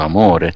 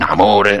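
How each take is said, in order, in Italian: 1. La parola viene detta con calore e tenerezza. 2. La parola viene detta in modo piatto, senza calore. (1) "la pronuncio amore" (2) "non amore"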